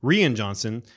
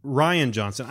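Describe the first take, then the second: First: "Rian" said as REE-un; playful mispronunciation. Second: "Rian" said as RYE-un; usual pronunciation. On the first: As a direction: say "Rian" with a long ee first. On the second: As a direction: say "Rian" like the name Ryan. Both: Real, not acted. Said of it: "I call him Rian because it's just fun".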